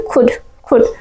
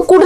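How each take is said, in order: First: कुड begun with an aspirated k, "khud"; k-kh mixed. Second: Said in the usual way. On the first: Shown as a demonstration. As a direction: puff lightly on the k of खुद. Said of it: "का और खा mix करके". (कुड को हल्के ख से "खुड" बोलें) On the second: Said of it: "कुड नहीं पढ़ना है".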